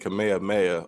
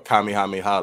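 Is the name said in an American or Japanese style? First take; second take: American; Japanese. First: The name is said with an American pronunciation. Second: The name is said with a Japanese pronunciation.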